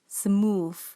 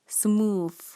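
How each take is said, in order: First: It is said with a Malaysian-style pronunciation. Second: It is said with a Malaysian-style pronunciation.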